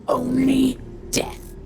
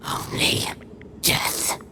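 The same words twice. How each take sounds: First: Slow, high, ominous pronouncement of Only death; intoning Only death like a doom; grim vow. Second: Only death breathed as a hushed whisper; a ghostly whispered Only death; whispered echo. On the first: Dark vow, then echoed whisper. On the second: Echo of the vow. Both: Acted.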